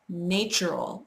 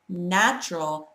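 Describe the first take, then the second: First: It is said with a Russian accent. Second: It is said with an American accent. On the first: Someone else said it this way. The speaker calls it wrong. "a Russian girl who used to say natural" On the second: This is how it is actually said. The speaker calls it right. "it's actually natural"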